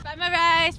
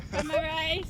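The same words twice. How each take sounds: First: Breaking into laughter mid-pitch; laughing. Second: Lightly voiced hawker pitch; street vendor call. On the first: Pretend. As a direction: giggle through the vendor line. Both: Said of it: "What did you say?".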